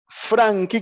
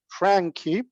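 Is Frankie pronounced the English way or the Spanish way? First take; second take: Spanish; English. First: Frankie is pronounced with Spanish sounds. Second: Frankie is pronounced with English sounds. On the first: The speaker calls it wrong. "que lo leemos así" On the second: The speaker calls it right. "pero en realidad es Frankie"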